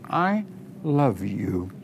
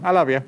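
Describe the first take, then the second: First: It is said slowly and with intense passion. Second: It is said lightly and in a casual way.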